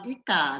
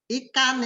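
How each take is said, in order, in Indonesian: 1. Kata ini tidak diakhiri konsonan. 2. Kata ini diakhiri bunyi n.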